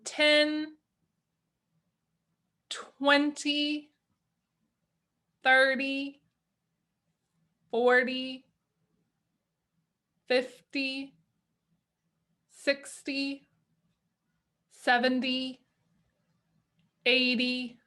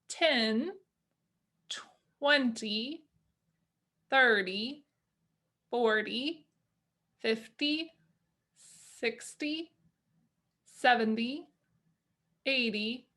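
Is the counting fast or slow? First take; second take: slow; fast. First: The counting is at a slower pace. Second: The counting is at a quicker pace.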